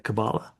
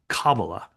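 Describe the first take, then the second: First: The stress is on a later syllable. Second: The stress is on the first syllable. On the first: This is how the British conversation partner says it. "I think I'm hearing you say Kabbalah" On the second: This is how people in America say it. "the accent on the first syllable"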